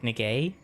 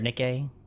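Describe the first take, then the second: First: The second syllable is pitched high. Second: The second syllable is pitched low. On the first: It just sounds like an odd way of saying a name. The speaker calls it right. "if you say it like an upper way" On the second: It sounds like an offensive word. The speaker calls it wrong. "the other way I just said it"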